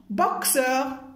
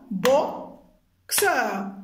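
First: Said in the usual way. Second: BOXEUR as bo, pause, xeur; syllable by syllable. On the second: Shown as a demonstration. Teacher tapping syllables for pupils, split apart. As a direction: firmly separate the two beats of boxeur. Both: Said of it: "tapez les syllabes".

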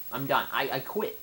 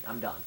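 First: Louder frustrated I'm done; louder exasperated repeat. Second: Said in the usual way. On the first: Real, not acted. Gamer repeating his surrender, louder and exasperated. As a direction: say it again with more fed-up force.

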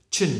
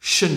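First: "chin" alone, crisp "ch" onset. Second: "shin" alone, hushing "sh" onset. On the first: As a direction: model "chin" with a short burst. ("chin" bật rõ âm "ch") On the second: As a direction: model "shin" with a smooth hiss. ("shin" xì rõ âm "sh") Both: Shown as a demonstration. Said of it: "khác biệt chưa?".

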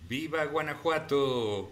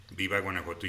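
First: Exclaimed, higher and lively; cheering viva. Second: Said in the usual way. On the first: Retold or imitated. Streamer reading a viewer's cheer, exclaimed. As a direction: shout it like a proud cheer for Guanajuato. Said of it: "Y dice D J Cachetón aquí abajito". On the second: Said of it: "O sea, él dice".

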